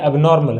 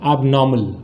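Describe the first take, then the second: First: एबनॉर्मल with a sounded r, "ab-NOR-mal"; common mispronunciation. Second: एबनॉर्मल as ab-NAW-mul, r dropped; correct pronunciation. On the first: Teacher showing what people say in conversation, common mispronunciation. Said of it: "हालांकि ये गलत है". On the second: Teacher answering how to pronounce it right, correct pronunciation. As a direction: say एबनॉर्मल lower, with a silent r. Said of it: "इसका जो सही उच्चारण है वो क्या है?". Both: Shown as a demonstration.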